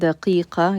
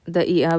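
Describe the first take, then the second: First: The q sounds are pronounced as real q sounds. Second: The q sounds are replaced by glottal stops. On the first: This is the standard form being taught. "You're pronouncing the actual qaf" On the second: This is the everyday dialect form. "in dialect it's da'i'a"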